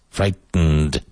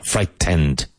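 First: "frightened" broken before a syllabic "nd"; strange "nd" sound. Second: "frightened" as "fright-TEND", with a full "tend"; wrong heavy T. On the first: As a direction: isolate the end of "frightened": light T, then a hummed "nnd". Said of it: "Strange sound". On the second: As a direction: demonstrate the mistake, "frightened" with a strong T and clear E. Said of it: "But not frightened". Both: Shown as a demonstration.

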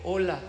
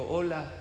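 First: Said in the usual way. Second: Put-on the mountain echo answering the boy. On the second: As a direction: let hola float back faintly. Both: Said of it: "Y el eco le respondió".

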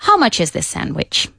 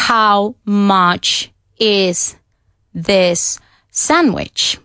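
First: "How much is this sandwich" run together, "much is" as "matches"; words blended in one flow; linked natural speech. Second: "How much is this sandwich" spoken very slowly, each word separate; every word said apart with gaps. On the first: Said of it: "Lo que dicen es". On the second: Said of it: "nadie dice". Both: Shown as a demonstration.

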